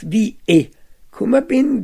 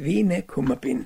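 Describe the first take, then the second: First: The two vowels meet with no consonant between. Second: An n sound joins the two vowels. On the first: "statt wie e kummer bin" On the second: "wird ein N eingefügt"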